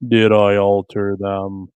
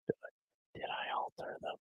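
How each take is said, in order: First: Slow, loud and low. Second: Breathy whisper. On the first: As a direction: drag it out loudly. Playful mic test, slow loud. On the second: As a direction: whisper the question. Playful mic test whisper. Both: Pretend.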